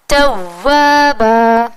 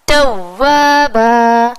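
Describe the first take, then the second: Both takes have the same delivery.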